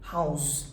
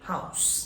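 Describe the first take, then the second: First: The word has its verb pronunciation. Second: The word has its noun pronunciation. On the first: It means to give shelter or to keep something. "is a verb. Now, the pronunciation is not house, it will be house" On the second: It means a building where people live. "Noun ... last সাউন্ডটি আমি করছি হাউস"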